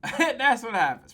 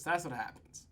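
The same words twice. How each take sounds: First: Said with a laugh; amused laughing repeat. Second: Said in the usual way. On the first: Real, not acted. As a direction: chuckle it out.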